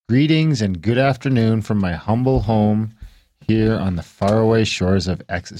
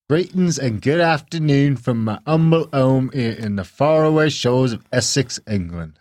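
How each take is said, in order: First: It is read in the speaker's own accent. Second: It is read in a put-on UK accent.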